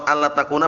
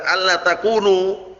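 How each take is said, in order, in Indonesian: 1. Kata terakhir diakhiri dengan vokal 'a'. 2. Kata terakhir diakhiri dengan vokal 'u'. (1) "kalau dibaca nasab" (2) "takunu marfu'"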